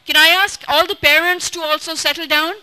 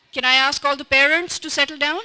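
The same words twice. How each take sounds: First: Calling out. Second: Said in the usual way. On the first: Real, not acted. Calling out to settle parents.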